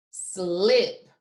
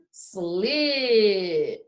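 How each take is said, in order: First: Blended back together. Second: Long drawn slip with a late P; say it slowly. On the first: Teacher putting sounds together for the class, blended. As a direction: slip as one short whole word. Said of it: "What sounds do you hear?". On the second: Teacher saying it one more time, slowly stretched. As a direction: stretch slip out before closing the P. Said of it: "gonna say it one more time". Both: Shown as a demonstration.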